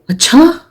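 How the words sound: It sounds shocked and surprised. This news comes as a shock. "it can register as a shock or as a surprise"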